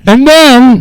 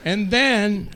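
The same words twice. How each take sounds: First: High, very loud burst; louder repeat. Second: Said in the usual way. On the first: Real, not acted. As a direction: blast it into the mic.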